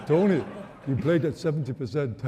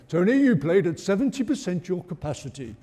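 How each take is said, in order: First: Bad French impression; French accent. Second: Bad impression of a French manager; mock French accent, half laughing. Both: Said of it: "It's a bad impression".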